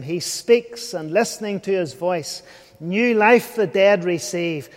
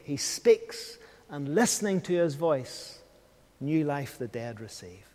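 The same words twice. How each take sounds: First: Hymn recital. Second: Lower, much softer, fading away; soft hymn echo. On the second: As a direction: let the hymn line die into quiet. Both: Shown as a demonstration. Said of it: "In the words of Wesley's hymn".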